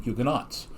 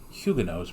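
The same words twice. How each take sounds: First: The word is said in the usual American way. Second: The word is said in an unfamiliar, non-American way. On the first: "It's always just been Huguenots" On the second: "I've never heard the French Protestants pronounced Huguenots before"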